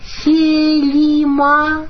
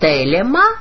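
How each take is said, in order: First: The second vowel sounds like 'i'. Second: The second vowel sounds like 'e'. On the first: This is the Koine or Byzantine pronunciation. "в транскрипции кайне, она же и византийская" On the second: This is the classical Greek pronunciation. "в классической, так сказать, транскрипции"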